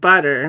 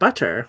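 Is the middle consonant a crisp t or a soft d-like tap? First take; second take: soft tap; crisp t. First: The middle t is a soft d-like tap. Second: The middle t is crisp and clearly released. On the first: It is said the way people say it locally. "But here, I pronounce it butter because nobody else is going to overpronounce the word" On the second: It is said the way it is said in the UK. "If you're in the U K, I'd pronounce it butter"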